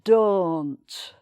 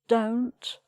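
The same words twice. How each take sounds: First: A broad, dark northern English O vowel. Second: A plain southern English O vowel. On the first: "in the northern accent... it's much broader" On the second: "in sort of southern R P"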